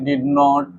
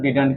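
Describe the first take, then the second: First: It is said as two full separate words. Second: It is said as one short contracted word. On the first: "इसके लिए मैं डिड नॉट बोला" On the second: "short में आप डिडंट भी बोल सकते हैं"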